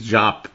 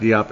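First: The name is said as one syllable, jop. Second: The name is said with two syllables, dee-op. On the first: The speaker calls it right. "It's Jop" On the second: The speaker calls it wrong. "It's not Diop"

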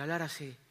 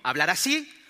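First: It is said quietly, with a small voice. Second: It is said loudly, with projected voice.

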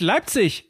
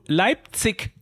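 First: The ending is said with a soft ch sound. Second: The ending is said with a hard k sound. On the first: The speaker calls it right. "Im Hochdeutschen wird die Endung IG CH ausgesprochen. Es heißt Leipzig" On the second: The speaker calls it wrong. "er wird jedes Mal wahnsinnig, wenn du Leipzig sagst"

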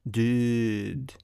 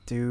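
First: It is said with a French accent. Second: It is said in his ordinary accent.

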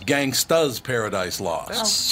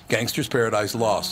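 First: The first word ends with an 'a' sound. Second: The first word ends with a clear 'er' sound. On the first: This is the pronunciation that was accepted. The speaker calls it right. "When the correct answer was" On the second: This is the pronunciation that was penalized. The speaker calls it wrong. "Gangster's Paradise lost is how he responded"

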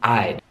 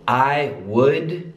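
First: The words are merged into one syllable. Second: Two separate full words are said. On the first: "I would becomes I'd" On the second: "I would becomes I'd"

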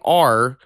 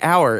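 First: It sounds like the letter R. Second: It rhymes with 'flower', like the word hour. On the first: The speaker calls it wrong. "if you say R" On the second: The speaker calls it right. "the word spelled O-U-R is pronounced like the time frame"

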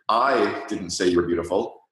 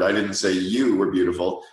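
First: The stress falls on "I". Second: The stress falls on "you". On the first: "put the emphasis on the first word" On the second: "or the fourth word"

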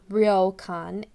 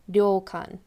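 First: It starts with an English r sound. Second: It starts with a sound between r and l. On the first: The speaker calls it wrong. "it's not ryokan" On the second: The speaker calls it right. "but ryokan"

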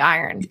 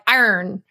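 First: The word is said in a plain, standard way. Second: The word is said in a pirate-like way. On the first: The speaker calls it right. "I can say iron" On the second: The speaker calls it wrong. "You're like iron. Like a pirate"

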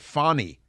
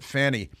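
First: The first vowel sounds like the one in 'fawn'. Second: The first vowel sounds like the one in 'fan'. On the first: The speaker calls it right. "You have to pronounce it Fawny" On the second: The speaker calls it wrong. "you can't pronounce it Fanny"

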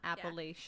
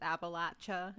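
First: The word does not sound like 'apple at ya'. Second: The word sounds like 'apple at ya'. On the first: This is how people from up north say it. The speaker calls it wrong. "and not Appalachia" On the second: This is how people from the region say it. The speaker calls it right. "you are dead set on the fact that it's Appalachia"

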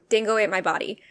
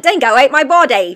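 First: It is said in the speaker's ordinary accent. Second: It is said in a put-on London accent.

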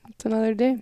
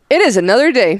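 First: It is said in a flat, unenthusiastic tone. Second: It is said in a lively, enthusiastic tone.

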